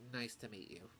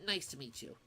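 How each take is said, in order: First: The voice sounds low and downcast. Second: The voice sounds fairly neutral, not downcast. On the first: The speaker calls it right. "I sound so down" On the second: The speaker calls it wrong. "I've got his tone wrong"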